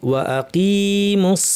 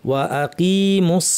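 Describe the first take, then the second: Both takes have the same delivery.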